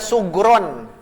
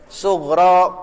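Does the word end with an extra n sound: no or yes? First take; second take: yes; no. First: The word ends with an added n sound. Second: The word ends on a vowel, without n. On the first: The speaker calls it wrong. "Tidak boleh dibaca sugron, tidak boleh" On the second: The speaker calls it right. "Tapi harus begini"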